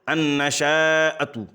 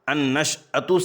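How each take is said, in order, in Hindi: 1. sh ध्वनि के बाद लंबी a ध्वनि आती है। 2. sh ध्वनि के बाद कोई स्वर नहीं है। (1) "शीन को फ़तहा देते हैं" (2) "यहाँ पर शीन पर जज़्म है"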